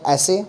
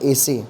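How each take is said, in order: First: The first vowel is an open 'ae' sound. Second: The first vowel is a closed 'e' sound. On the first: The speaker calls it right. "आप ऐसे बोलिए" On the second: The speaker calls it wrong. "एसे थोड़ा अजीब लग रहा है"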